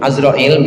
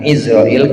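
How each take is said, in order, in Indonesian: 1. Kata ini diawali dengan vokal a. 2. Kata ini diawali dengan vokal i. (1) "bi fathil ain, bacanya pakai ain" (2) "bukan Izrail"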